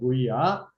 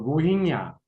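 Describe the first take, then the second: First: The middle syllable has no ng sound. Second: The middle syllable ends with an ng sound. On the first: This is an easier simplified pronunciation. "저는 그냥 로히야라고 발음합니다" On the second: This is the accurate pronunciation of the name. "정확한 발음은 로힝야"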